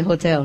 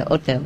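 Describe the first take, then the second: First: Said in the usual way. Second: Hotel with a silent h, said "otel"; French pronunciation. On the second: Shown as a demonstration. Showing how the French say hotel, "otel" with no h. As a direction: drop the h in hotel, French style. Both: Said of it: "They say hotel".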